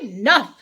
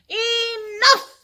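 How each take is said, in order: First: Loud kingly Enough; king's shout. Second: Much higher and louder Enough; villagers' shout. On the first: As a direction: bark it like a fed-up king. King loses patience in story. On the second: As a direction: cry it out like an exasperated crowd. Villagers fed up in story. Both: Acted.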